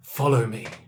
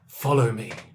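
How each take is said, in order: First: It is said in a creepy, sinister way. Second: It is said in a creepy, sinister way.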